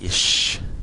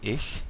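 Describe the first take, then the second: First: The word ends in an sh sound. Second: The word ends in a soft ch sound. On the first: This is the southern German form. "here in southern Germany, they say something like ish" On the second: This is the modern standard German form. "the word for I in German is um, ich in modern German"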